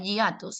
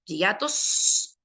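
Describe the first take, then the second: First: Said in the usual way. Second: Hiatos slowed, with a long final s; stressed plural. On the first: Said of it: "que no diga donde hay". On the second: Shown as a demonstration. Teacher fixing the exam question, hiatos with stressed plural s. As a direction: stretch the plural ending of hiatos. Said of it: "Más de uno".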